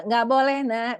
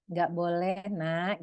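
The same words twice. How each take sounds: First: A notch louder, tense no; mother raising her voice at a pestering child; raised stern refusal. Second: Said in the usual way. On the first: Shown as a demonstration. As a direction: refuse again, now losing patience. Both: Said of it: "Kita udah mulai agak tinggi juga".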